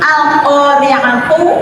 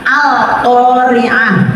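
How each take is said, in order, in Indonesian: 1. Kata ini berakhir dengan huruf t dan vokal. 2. Kata ini berakhir dengan bunyi h lembut. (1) "akhir kata itu kan ada tu ya" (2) "lah itu dibaca al-qari'ah ya"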